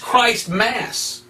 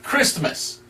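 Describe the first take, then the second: First: The first part sounds like 'Christ', then 'Mass'. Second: The first part sounds like 'kris', run together. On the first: This shows the name's true origin. "If you really want to call it what it is" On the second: This is the usual name for the holiday. "we say it different"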